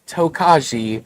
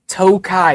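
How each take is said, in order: First: The word is said with a J sound. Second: The word is said without a J sound. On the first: The speaker calls it wrong. "It is not Tokaji or Tokajai. J is silent" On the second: The speaker calls it right. "Tokai is the proper pronunciation"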